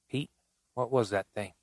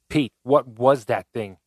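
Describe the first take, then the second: First: It is said quietly. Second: It is cried out in horror.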